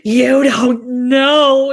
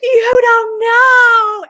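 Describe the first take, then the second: First: Loud, drawn-out insistence; loud but not screamed, very slow; insistent retort. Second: High, drawn-out mock scream; hammed-up retold shriek, loud and high. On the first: Retold or imitated. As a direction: stretch each word in loud mock protest. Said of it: "And I'm like". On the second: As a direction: holler it from the stairs, stretching every word. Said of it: "I, like, screamed from the stairs".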